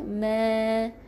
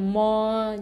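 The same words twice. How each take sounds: First: The syllable sounds light and thin. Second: The syllable sounds heavy and thick. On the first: The speaker calls it right. "kita baca dengan nipis" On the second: The speaker calls it wrong. "jangan tebalkan"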